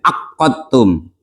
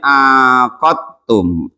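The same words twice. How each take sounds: First: The q sound is doubled and held longer. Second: The first vowel is lengthened, the q single. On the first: "dengan tasjid" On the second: "ainnya dipanjangin"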